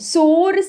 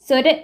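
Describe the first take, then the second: First: The first vowel is a long o. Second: The first vowel is a short o. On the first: The speaker calls it right. "சோறு செஞ்சுட்டேன்" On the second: The speaker calls it wrong. "சொரு போட்டுட்டா அப்படின்னு கேட்க மாட்டாங்க"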